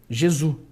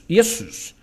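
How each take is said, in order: First: The name begins with a J sound. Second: The name begins with a Y sound. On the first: This is the later, altered form of the name. "alteraram o som do J" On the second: This is the older form, before the J sound changed. "o J é som de Y. E ficaria Iesus"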